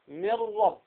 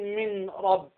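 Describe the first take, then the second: First: The n merges fully into a doubled r. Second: The n is pronounced clearly, not merged. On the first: The speaker calls it right. "لكن تقول ماذا؟" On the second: The speaker calls it wrong. "ما تقول من رب لأنها هكذا لم تضغم"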